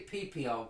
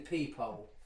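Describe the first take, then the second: First: The first part is doubled into three syllables. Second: The word is said in two syllables. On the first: The speaker calls it wrong. "that sounds like your hole in your penis" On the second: The speaker calls it right. "You mean the peephole"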